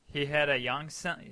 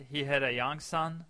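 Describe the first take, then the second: No difference in how they are said.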